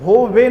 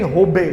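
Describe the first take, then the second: First: होबे said with a v, as "ho-ve"; wrong Bengali pronunciation. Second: होबे with a firm b, "ho-be"; correct Bengali pronunciation. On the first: Teacher showing the mistaken Bengali word, होबे said as "ho-ve". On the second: Teacher correcting the Bengali word, होबे said as "ho-be" with a b. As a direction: close the lips for the b in होबे. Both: Shown as a demonstration. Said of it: "होबे नहीं, होबे".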